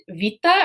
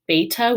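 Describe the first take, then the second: First: The word begins with a v sound. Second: The word begins with a b sound. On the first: This is the modern pronunciation. "it's more of a v, a v sound" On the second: This is the classical ancient pronunciation. "with a b sound"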